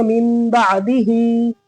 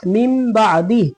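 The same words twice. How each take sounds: First: बादिही with a long, held "hee"; joining form. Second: Chanted, बादी closing on a breathed "ih"; stopping form. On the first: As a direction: draw out the last vowel of बादिही. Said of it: "आगे मिलाएंगे तो कैसे पढ़ेंगे?". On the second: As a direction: stop at बादी, without a long last vowel. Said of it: "इस तरह रुकेंगे". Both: Shown as a demonstration.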